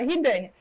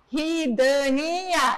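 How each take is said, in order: First: The name is said at normal speed. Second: The name is said slowly, syllable by syllable.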